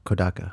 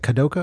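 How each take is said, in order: First: The middle vowel sounds like 'ah'. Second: The middle vowel sounds like 'oh'. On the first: The speaker calls it right. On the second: The speaker calls it wrong. "I always say that wrong"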